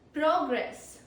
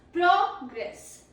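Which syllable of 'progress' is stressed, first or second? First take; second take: first; first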